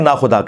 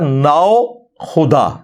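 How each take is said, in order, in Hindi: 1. पहला अक्षर सादा, छोटा 'na' है। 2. पहले अक्षर के अंत में 'w' जैसी ध्वनि है। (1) "उसे मुख्तसर करके ना खुदा कहते हैं" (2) "वो असल में लफ्ज है नाओ खुदा"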